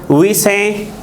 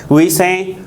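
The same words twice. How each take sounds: Both takes have the same delivery.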